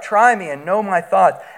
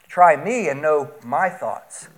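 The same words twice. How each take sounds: First: The pronouns me and my get no special emphasis. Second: The pronouns me and my are strongly emphasized.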